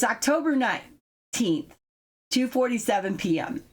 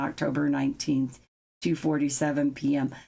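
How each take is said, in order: First: It is read with lively emphasis. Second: It is read in a flat monotone. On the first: It engages the audience. The speaker calls it right. "you gotta emphasize, you gotta accentuate" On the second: It doesn't make the listener feel present. The speaker calls it wrong. "He reads very monotone, so everything's kind of like this"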